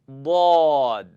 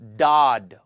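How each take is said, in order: First: The word starts with air past the tongue's sides. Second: The word starts with a plain d sound. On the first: The speaker calls it right. "I used the sides of my tongue to touch the big teeth in the back" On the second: The speaker calls it wrong. "Don't make a D sound"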